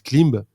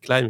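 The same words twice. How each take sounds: First: The word is given a French-style pronunciation. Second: The word is given an American English pronunciation. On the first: The speaker calls it wrong. "Il y a pas mal de gens qui disent Climb" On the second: The speaker calls it right. "c'est à l'américaine, euh, on dit climb"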